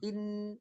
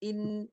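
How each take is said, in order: First: The vowel runs straight into the n. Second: The vowel runs straight into the n.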